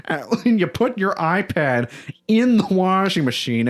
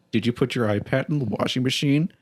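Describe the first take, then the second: First: Higher, drawn-out mock outcry; slow, high-pitched retold disbelief; mock scream. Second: Imitated deadpan with a slight rise at the end; level, unamused mock questioning. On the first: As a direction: imitate a partner's scandalized scream without full volume. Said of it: "just scream over the fact that". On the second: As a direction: ask it deadpan, imitating a partner's disbelief. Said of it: "looked at me deadpan".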